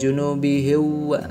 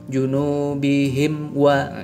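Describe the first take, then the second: First: The m is dropped, running into wa. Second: The m is clearly closed before wa. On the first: The speaker calls it wrong. "bukan junubihiwa gitu ya" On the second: The speaker calls it right. "mim ketemu dengan waw itu dibaca jelas"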